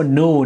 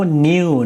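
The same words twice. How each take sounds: First: "new" said as "noo"; "new" pronounced with a plain oo straight after n; new without glide. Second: "new" said as "nyoo"; "new" pronounced n-yoo; new with y-glide. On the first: Alternative saying of new after or. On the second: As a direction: say "new" with a y sound after the n. Two takes of new joined by or. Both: Shown as a demonstration.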